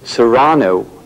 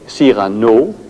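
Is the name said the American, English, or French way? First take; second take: English; French. First: The name is said with an English pronunciation. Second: The name is said with a French pronunciation. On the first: "the English uh, are saying Serrano" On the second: "French would say Cyrano"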